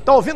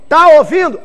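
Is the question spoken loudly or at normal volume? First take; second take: normal; loud. First: The question is spoken at normal volume. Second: The question is spoken much louder.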